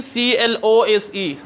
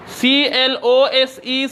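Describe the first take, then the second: First: सीएलओएसई said slowly with a falling tune, as the other way of saying close; second reading of close. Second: सीएलओएसई said slowly, as the first way of saying close; first reading of close. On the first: (सीएलओएसई का दूसरा उच्चारण, धीमा और गिरता सुर) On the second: (सीएलओएसई का पहला उच्चारण, धीरे-धीरे) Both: Shown as a demonstration. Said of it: "कभी पढ़ा जाता है क्लोज और कभी पढ़ा जाता है क्लोज".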